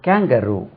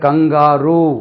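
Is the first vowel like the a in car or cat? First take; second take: cat; car. First: The first vowel is a front ae sound. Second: The first vowel is an open ah sound. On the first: The speaker calls it right. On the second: The speaker calls it wrong.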